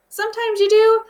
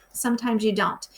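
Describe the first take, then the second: First: "do" lifted high and loud; bright teacher contrast, "do" punched up high; stress on do. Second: Said in the usual way. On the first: Shown as a demonstration. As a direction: sing out "Sometimes you do" with a high, loud "do". Contrasting do and don't.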